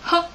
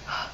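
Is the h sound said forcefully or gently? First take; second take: forcefully; gently. First: The h sound is said forcefully. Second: The h sound is said gently. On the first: The speaker calls it wrong. "The first one is a forceful sound" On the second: The speaker calls it right. "but if you make it gentle"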